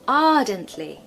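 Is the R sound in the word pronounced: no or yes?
no. The R sound is dropped after the first vowel. "in the modern received pronunciation accent"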